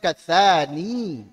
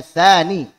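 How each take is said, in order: First: The final vowel is long. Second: The final vowel is short. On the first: This is the original form of the word. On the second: The vowel is shortened to fit the verse meter. "yaknya dibuang"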